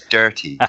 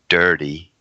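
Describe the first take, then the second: First: The middle consonant is a clear T. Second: The middle consonant sounds like a soft D. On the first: The speaker calls it right. "the word has a T in it as well" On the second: The speaker calls it wrong. "it doesn't have two D's in"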